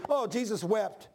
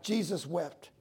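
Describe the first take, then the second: First: Casual, unthinking recital; mock glib quoting; offhand quote. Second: Quiet, grave recital; understated reverence; solemn weight. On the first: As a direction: toss it off as a familiar saying. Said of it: "you don't realize what, you're saying". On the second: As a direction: let the weight of the verse sink in. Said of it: "the impact behind that verse". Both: Shown as a demonstration.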